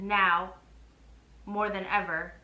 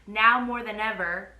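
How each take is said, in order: First: There is a pause after 'now'. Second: There is no pause after 'now'.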